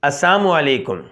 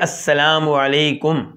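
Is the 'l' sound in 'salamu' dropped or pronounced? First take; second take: dropped; pronounced. First: The 'l' sound is left out of the greeting. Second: Every sound, including the 'l', is said clearly. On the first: It wishes death on the listener. The speaker calls it wrong. "लाम को गैब कर देते थे" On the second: It wishes peace on the listener. The speaker calls it right. "साफ साफ कहना चाहिए"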